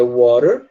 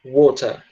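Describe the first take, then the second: First: "Water" with the T flapped like an R; American "Water", tapped T and sounded final R. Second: "water" with a crisp T and no final R; British "water", T fully sounded, ending on a vowel; British true T. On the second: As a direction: say "water" British-style with a real T. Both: Shown as a demonstration. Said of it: "Olha a diferença".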